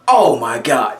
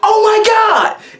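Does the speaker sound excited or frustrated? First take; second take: frustrated; excited. First: It sounds frustrated and upset. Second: It sounds happy and excited.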